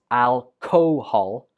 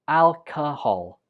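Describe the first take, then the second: First: The second syllable has a full vowel. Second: The second syllable has a weak schwa vowel. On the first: The speaker calls it wrong. "not alcohol" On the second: The speaker calls it right. "The second syllable uses the schwa, so it takes a weak form"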